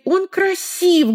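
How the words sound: It is said firmly, in a commanding, authoritative way. It is not open to discussion. "Она может быть авторитарной"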